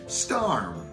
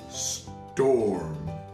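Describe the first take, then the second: First: The vowel is said like 'ar' in arm. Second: The vowel is said like 'or' in for. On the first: The speaker calls it wrong. "That doesn't sound right" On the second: The speaker calls it right. "That sounds a little bit better"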